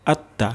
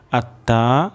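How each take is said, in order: First: আত্তা with a short final a; short, quick vowel. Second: আত্তা with a dragged final a; wrongly lengthened vowel. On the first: Teacher shows how to read it quickly, short vowel. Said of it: "দ্রুত পড়ব". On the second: Teacher shows learners a common slip, lengthened vowel. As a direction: stretch the end of আত্তা. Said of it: "টান চলে আসতে পারে". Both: Shown as a demonstration.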